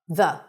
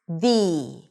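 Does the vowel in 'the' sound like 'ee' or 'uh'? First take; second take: uh; ee. First: The vowel is a short, reduced uh sound. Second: The vowel is a clear ee sound. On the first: The next word starts with a consonant. "the pronunciation of the word the is going to be with a schwa" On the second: The next word starts with a vowel. "we pronounce it with an E sound"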